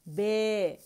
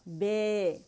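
Both takes have the same delivery.

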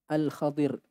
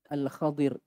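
Both takes have the same delivery.

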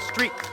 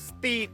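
First: The r sound after st is clearly pronounced. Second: The r sound after st is left out. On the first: The speaker calls it right. "แต่ถ้าควบกล้ำซอดอรอสตระสตรีทก็จะให้" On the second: The speaker calls it wrong. "เมื่อกี้บอกสตีทก็เลยแบบไม่ให้"

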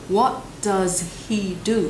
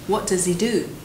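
First: The h in 'he' is clearly pronounced. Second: The h is dropped and 'does' links into 'he'. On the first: The speaker calls it wrong. "người ta không nói là" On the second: The speaker calls it right. "does nối vào với he sẽ trở thành"

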